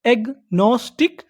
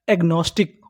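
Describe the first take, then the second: First: agnostic in slow separate parts, rising; syllable by syllable. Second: Said in the usual way. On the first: Shown as a demonstration. Teacher prompting learners for the English word, slow and rising. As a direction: say agnostic slowly as एग-नोस-टिक. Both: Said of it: "English में क्या बोलते हैं".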